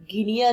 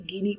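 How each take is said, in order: First: गिनिया said as three syllables, gi-ni-ya; wrong pronunciation shown. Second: गिनी said as two syllables, gi-nee, with no ya ending; right pronunciation shown. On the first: Teacher warns students off the misreading गिनिया, plain demo. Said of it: "इसे गिनी पढ़ेंगे". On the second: Teacher gives students the correct reading गिनी, plain demo. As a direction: say गिनी short and clean, the correct way. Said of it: "गिनिया नहीं पढ़ेंगे". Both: Shown as a demonstration.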